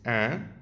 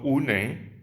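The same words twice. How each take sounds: First: "un" as one nasal vowel, the n silent; nasal "un" with no n sounded; French pronunciation. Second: "une" read Spanish-style as "u-ne"; wrong pronunciation. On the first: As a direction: say "un" as a short nasal "an". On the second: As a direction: sound both syllables of "une". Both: Shown as a demonstration. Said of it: "no une".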